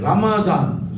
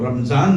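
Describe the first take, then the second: First: The word is said as ra-ma-zan, three syllables. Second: The word is said as ram-zan, two syllables. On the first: The speaker calls it right. "रा पर भी जबर है, मीम पर भी जबर है" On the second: The speaker calls it wrong. "रमजान नहीं कहना"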